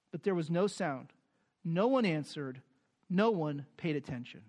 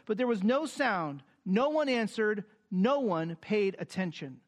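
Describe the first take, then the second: First: Grave, tragic. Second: Raised, even reading of the verse; scripture reading. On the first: Shown as a demonstration. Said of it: "Here's the most tragic moment". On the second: Acted. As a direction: read it plainly as the text. Reads scripture aloud.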